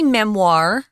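It is said with an American R.

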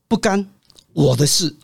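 There is a pause after the second syllable. Not doing it is my business. "干跟我呢中间加个逗号"

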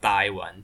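The first syllable takes the southern seventh-tone sandhi.

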